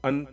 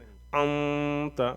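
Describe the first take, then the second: First: The n sound is short with no nasal hum. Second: The n sound is held with a long nasal hum. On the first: The speaker calls it wrong. "अंत नहीं" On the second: The speaker calls it right. "भिन भिना के पढ़ेंगे"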